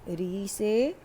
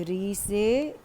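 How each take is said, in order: Both takes have the same delivery.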